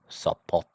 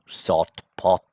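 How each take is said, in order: First: The stem's final consonant shifts to match the next. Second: The stem's final consonant keeps its original sound. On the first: The speaker calls it right. "we end up saying" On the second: The speaker calls it wrong. "instead of saying"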